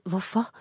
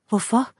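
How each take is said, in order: First: Soft, rising whispered question. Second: Higher, lightly gasped question; a short rising gasp of disbelief. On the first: Tearful Mia questions the man, whispering. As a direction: ask it under the breath. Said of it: "hviskede hun". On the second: Mia questions the man who hurt her, gasping. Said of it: "gispede hun". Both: A narrator's reading.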